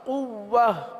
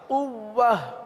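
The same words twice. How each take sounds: The two takes are said the same way.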